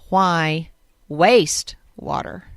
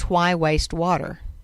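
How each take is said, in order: First: The stress falls on the word waste. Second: The stress falls on the word water. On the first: "But if you say it differently" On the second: "the theme this year is why waste water?"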